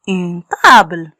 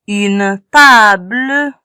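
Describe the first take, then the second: First: Said in the usual way. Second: "Une table" said slowly, syllables stretched; slow sounding out. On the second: Shown as a demonstration. Teacher reading slowly to children, drawn out. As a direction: drag out "Une table" for young readers.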